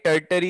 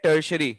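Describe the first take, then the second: First: The middle consonant is a t sound. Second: The middle consonant is an sh sound. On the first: The speaker calls it wrong. "ना ये टर्टरी है" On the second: The speaker calls it right. "ये है टर्शरी"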